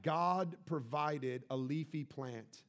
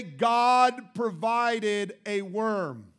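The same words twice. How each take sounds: First: "God provided" said slowly but softly; unhurried, soft emphasis on "provided"; gentle stress on provided. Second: "God provided" drawn out very slowly and loudly; preacher hammering "provided" slowly and loudly; stress on provided. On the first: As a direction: lay "provided" down slowly and quietly. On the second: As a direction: lean hard and slow on "God provided", booming. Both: Shown as a demonstration. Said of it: "I want you to follow this word provide".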